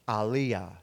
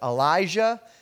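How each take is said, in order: First: The name has a Hebrew pronunciation. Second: The name has an English pronunciation. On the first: "his name is pronounced in Hebrew" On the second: "for the sake of my New Jersey accent, we're going to go with"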